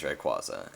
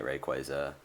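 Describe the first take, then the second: First: Rayquaza said as "ray-KWAH-zuh"; insisted-on pronunciation. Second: Rayquaza said as "ray-KWAY-zuh"; rejected pronunciation. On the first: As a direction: give Rayquaza an open "ah" in the middle. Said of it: "It is Rayquaza". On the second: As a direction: give Rayquaza a long "ay" in the middle. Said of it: "I am never pronouncing it". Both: Shown as a demonstration.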